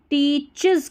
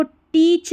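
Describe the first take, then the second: First: "टीचेस" in two syllables, tee-chiz; correct pronunciation. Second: "टीच" as one syllable, teech; wrong pronunciation. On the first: Teacher gives the right reading, "टीचेस" as tee-chiz. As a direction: end "टीचेस" on a buzzing iz. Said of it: "टीचेस करके पढ़ना". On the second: Teacher shows the misreading, "टीच" without final syllable. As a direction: cut the ending off, just "टीच". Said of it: "इसको टीच नहीं". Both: Shown as a demonstration.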